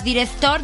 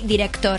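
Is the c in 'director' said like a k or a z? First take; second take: z; k. First: The c is said like a z. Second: The c is said like a k. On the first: The speaker calls it wrong. "no digas director" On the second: The speaker calls it right. "di director"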